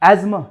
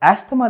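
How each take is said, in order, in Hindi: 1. बीच में 'z' की ध्वनि है। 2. बीच में 's' और 'th' की ध्वनि है। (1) "एजमा कहते हैं" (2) "एस्थमा नहीं"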